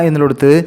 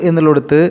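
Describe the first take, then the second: No difference in how they are said.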